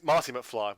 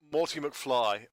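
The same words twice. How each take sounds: First: Said in the usual way. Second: "Morty" said with an OR vowel, like "more-tee"; the misnamed "Morty" with a rounded OR; mispronounced name. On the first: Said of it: "it's really Marty McFly". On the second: Shown as a demonstration. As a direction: say "Morty", first syllable rhyming with "more". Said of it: "they call it Morty McFly".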